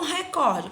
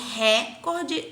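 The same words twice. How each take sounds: First: The stress is on the second syllable. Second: The stress is on the first syllable. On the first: The speaker calls it right. "não vamos confundir recorde com recorde" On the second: The speaker calls it wrong. "ela seria uma proparoxítona e ela era obrigatoriamente ter um acento"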